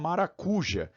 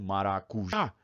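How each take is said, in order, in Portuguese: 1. O acento cai na penúltima sílaba. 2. O acento cai na última sílaba. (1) "se eu não acentuar, eu sou obrigado a falar maracuja" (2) "Chama no parquinho certo"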